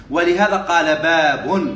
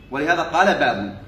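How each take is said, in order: First: Slow teacherly delivery, باب held long; slow dictation. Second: Said in the usual way. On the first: Shown as a demonstration. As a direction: draw out باب at the end, voice lifting. Dictates, then repeats for students.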